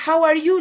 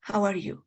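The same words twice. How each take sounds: First: Bright raised How are you; teacher gives the example brightly; example phrase. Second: Said in the usual way. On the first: Shown as a demonstration. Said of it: "tendré que decirle igual". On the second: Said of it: "Se puede traducir".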